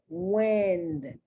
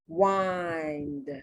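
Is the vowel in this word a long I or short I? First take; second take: short I; long I. First: The vowel is a short I sound. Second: The vowel is a long I sound. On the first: "In the short" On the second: "the long I sound"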